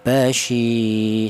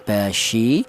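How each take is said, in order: First: The vowel after sh is held for two beats. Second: The vowel after sh is held briefly. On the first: The speaker calls it right. "kalau dua ketukan panjang atau dua harokat panjang" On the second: The speaker calls it wrong. "kalau satu harokat pendek"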